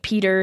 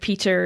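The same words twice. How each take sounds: First: The middle T is softened to a D. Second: The middle T is a crisp T. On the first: "softening my T's to D's" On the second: "instead of"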